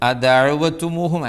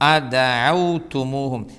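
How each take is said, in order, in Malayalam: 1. w ന് തൊട്ടുപിന്നാലെ ഒരു സ്വരം ഉച്ചരിക്കുന്നു. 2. w സ്വരമില്ലാതെ അക്ഷരത്തെ അടയ്ക്കുന്നു.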